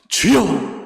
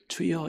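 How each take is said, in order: First: It is cried out loudly and with fervour. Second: It is said quietly and without force. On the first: The prayer is offered with all one's heart and strength. The speaker calls it right. "마음과 온 힘과 정성을 다해" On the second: The prayer is not offered with the whole heart. The speaker calls it wrong. "이게 아니라"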